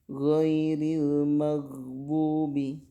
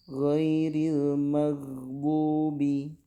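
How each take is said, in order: The two takes are said the same way.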